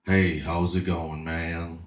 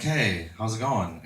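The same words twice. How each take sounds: First: Hint of a slow old man's voice, lower; lightly voiced low, unhurried caller; [name]. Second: Said in the usual way. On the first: Surprise caller answers his online date, lightly voiced low old man. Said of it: "You don't sound like a thirty-two-year-old mud and blonde". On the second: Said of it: "I'm like".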